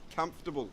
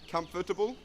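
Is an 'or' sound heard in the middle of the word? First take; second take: no; yes. First: No 'or' sound is heard in the middle. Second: An 'or' sound is heard in the middle. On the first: The speaker calls it right. "we say comfortable. If we get rid of the O R" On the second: The speaker calls it wrong. "We don't say comfortable"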